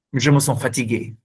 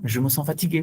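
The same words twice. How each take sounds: First: Calm demo. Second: Quicker take. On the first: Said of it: "C'est un ton stable, régulier". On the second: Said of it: "ça change tout". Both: Shown as a demonstration.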